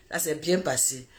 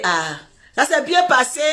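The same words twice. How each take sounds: First: Répété tout bas, presque pour soi; écho murmuré. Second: Said in the usual way. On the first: Retold or imitated. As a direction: laisse tomber la phrase dans un souffle. Répétition beaucoup plus douce. (répété tout bas, distraitement)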